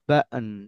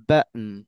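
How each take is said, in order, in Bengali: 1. মাঝের t হলো একটা গ্লটাল স্টপ। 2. মাঝের t হলো একটা গ্লটাল স্টপ।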